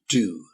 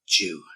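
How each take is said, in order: First: It starts with a plain D sound. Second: It starts with a J-like sound. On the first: "the Americans and American English, they pronounce it do" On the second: "in terms of British English, we would pronounce it due"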